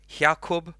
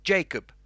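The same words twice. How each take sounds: First: "Jakob" said "HAH-koob", with a breathy H start; Spanish-style pronunciation. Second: "Jacob" said "JAY-kub", with an English J and a long A; English pronunciation. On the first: Streamer shows viewers another language's throaty version of the name. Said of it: "and in other ones". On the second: Streamer gives viewers the English version of his name. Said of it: "and then in English". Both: Shown as a demonstration.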